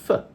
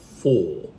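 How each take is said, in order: First: The word has a weak, reduced vowel. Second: The word has a full, clear vowel. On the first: "we say it actually as f" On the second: "citation form or strong form"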